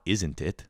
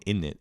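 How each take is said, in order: First: "Isn't it" with every sound in place; the careful, full "Isn't it"; over-pronounced. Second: "in it" merged into innit; exasperated correction, "in it" as one casual word; run-together innit. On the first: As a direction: spell out "Isn't it" crisply. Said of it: "It's not". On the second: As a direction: say "in it" with no z or middle t. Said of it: "It's not, "Isn't it?". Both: Shown as a demonstration.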